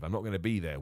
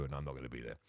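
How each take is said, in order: First: Said in the usual way. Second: Dropped very low and quiet; coy aside. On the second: Real, not acted. Host teasing listeners about the next show, coy aside. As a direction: tail off into a low, hushed denial. Teasing denial after wink, wink.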